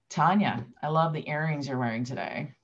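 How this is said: It sounds sarcastic and unkind.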